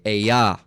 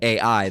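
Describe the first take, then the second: First: It is said as one word, ah-yah. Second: It is said as two separate letter names. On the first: The speaker calls it right. "this is I or a a ya" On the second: The speaker calls it wrong. "This is not A I"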